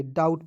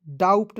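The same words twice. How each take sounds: First: डाउट with no p before the t; डाउट, vowel straight into t; correct pronunciation. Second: डाउट said as "daupt", p before the t; wrong pronunciation. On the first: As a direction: say डाउट, B fully silent. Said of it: "डाउट पढ़ा जाएगा". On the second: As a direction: sound a p inside डाउट. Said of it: "डाउट नहीं पढ़ेंगे". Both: Shown as a demonstration.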